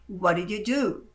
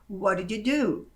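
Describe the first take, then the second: No difference in how they are said.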